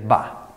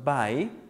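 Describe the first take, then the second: First: The vowel is plain, sounding like 'bah'. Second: The vowel glides, sounding like 'bye'. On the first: This is how most speakers actually say it. "but most speakers say ba" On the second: This is how the spelling suggests it is said. "So you would expect it to be pronounced by"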